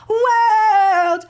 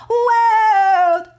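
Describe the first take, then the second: No difference in how they are said.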